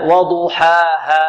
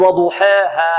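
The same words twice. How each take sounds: First: "وضحاها" slowly, with a pure open long a; careful untilted alef in "وضحاها"; correct open alef. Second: "وضحاها" with the ha's long a bent toward e; wrong tilted alef. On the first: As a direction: draw out "وضحاها" as "waduhaaha", no tilt to e. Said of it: "لا". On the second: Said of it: "نحترز من إمالة الألف". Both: Shown as a demonstration.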